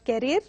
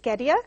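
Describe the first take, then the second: First: The R sound is clearly pronounced. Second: The R sound is dropped. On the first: The speaker calls it wrong. "it is not carrier" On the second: The speaker calls it right. "not supposed to be pronounced at all"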